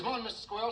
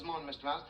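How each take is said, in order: First: High, loud, sing-out hello; cheery mouse greeting. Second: Answering greeting. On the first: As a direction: hail a neighbour in a little mouse's voice. Happy mouse greeting everybody in story. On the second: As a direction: return the greeting less excitedly. Squirrel answers the mouse's greeting. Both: Acted.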